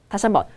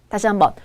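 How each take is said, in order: The two takes are said the same way.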